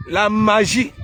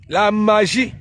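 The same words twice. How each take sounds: The two takes are said the same way.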